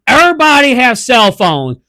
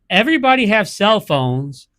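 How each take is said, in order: First: It is read in an exaggerated, put-on caricature voice. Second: It is read in a plain, normal voice.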